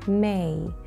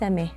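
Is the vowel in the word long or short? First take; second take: long; short. First: The vowel is drawn out long. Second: The vowel is cut short. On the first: The speaker calls it right. "علينا أن نمد الـ A قليلا" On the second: The speaker calls it wrong. "وليس مه"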